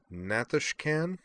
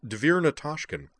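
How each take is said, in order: First: Natashkan? with the last syllable -kan drawn out, slow and rising; stress on last syllable. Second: Devir Natashkin said crisply, the final -kin light and short; correct pronunciation. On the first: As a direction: lean hard on the -kan of Natashkan?. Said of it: "placing too much emphasis on the last syllable". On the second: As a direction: correct the official: Devir Natashkin, unstressed end. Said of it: "It's pronounced". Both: Acted.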